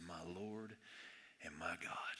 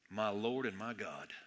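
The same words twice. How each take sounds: First: Much softer and lower, awed; almost-whispered confession; soft awe. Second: Low, slow and soft, in reverent awe; hushed reverent confession. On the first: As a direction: let the words barely come out. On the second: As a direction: breathe it out like a confession. Thomas's awed confession, quoted. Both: Retold or imitated.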